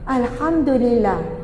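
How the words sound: It is said in a warm, smiling tone. The praise comes from the heart. The speaker calls it right. "Wajah kita senyum"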